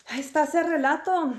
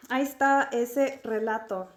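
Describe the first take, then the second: First: Higher, dramatic storyteller reading. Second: Said in the usual way. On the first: Shown as a demonstration. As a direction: announce it like a title. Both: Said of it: "repeats line differently".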